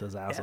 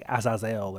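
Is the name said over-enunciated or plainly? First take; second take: plainly; over-enunciated. First: The syllables are pronounced in a relaxed, ordinary way. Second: Each syllable is pronounced with exaggerated care. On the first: The speaker calls it right. "I think it's just Azazel" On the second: The speaker calls it wrong. "You over-enunciated it. You said Azazel"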